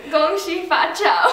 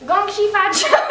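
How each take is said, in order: First: Put-on Mandarin words in a plain American accent. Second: Higher, laughing mock Chinese accent; put-on Chinese accent. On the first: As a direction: say it in an American voice, not Chinese. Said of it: "You said it in American". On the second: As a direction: push the Chinese accent, giggling through it. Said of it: "say it in a Chinese accent".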